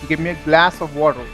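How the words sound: It is said in an American accent. "American would say"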